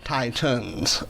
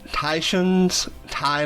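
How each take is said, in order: First: It sounds like the ordinary word 'titans'. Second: The first syllable sounds like the word 'tie'. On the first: "my screen reader does pronounce it Titans" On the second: "like as in the Tie Fighter from Star Wars"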